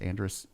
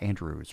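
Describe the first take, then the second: First: The name ends with a 'dress' sound. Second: The name ends with a 'droos' sound. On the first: The speaker calls it right. "It's Andress" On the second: The speaker calls it wrong. "It's not Andrews"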